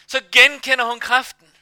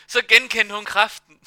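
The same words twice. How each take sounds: First: Higher and louder, stress on genkender; emphatic repeat. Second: Said in the usual way. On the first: Real, not acted. Preacher stressing the woman recognizing God's power, louder. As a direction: lean on "genkender", raised and louder.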